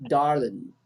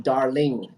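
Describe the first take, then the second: First: "Darling" ending in a short "lin", the g dropped. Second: "darling" with a clear full "ing" and a ringing g. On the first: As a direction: clip the end of "Darling" to "darlin". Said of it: "we often say". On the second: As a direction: sound out the whole "ling" in "darling". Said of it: "instead of". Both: Shown as a demonstration.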